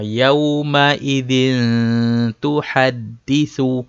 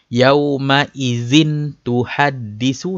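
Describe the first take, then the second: First: The n sound is held with a nasal hum. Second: The n sound is clipped without a nasal hum. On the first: The speaker calls it right. "dengungkan sikit lah" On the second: The speaker calls it wrong. "salah lah"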